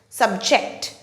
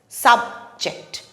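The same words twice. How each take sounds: First: The stress is on the second syllable. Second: The stress is on the first syllable. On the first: It is used as a verb. "the stress falls on the second syllable ject" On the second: It is used as a noun. "the stress falls on the first syllable"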